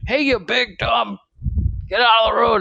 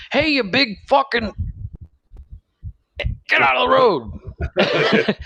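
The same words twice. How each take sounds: First: High retold yell at the top of his lungs; mock yell. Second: High mock yell, laughing through it; dad yelling out the window. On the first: Retelling dad yelling at a driver, mock yell. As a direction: throw it out like dad yelling, but lighter. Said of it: "top of his lungs". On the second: Dad yelling at a driver in traffic, high laughing yell. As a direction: bellow it out the van window, cracking up. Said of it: "My dad yells out the window".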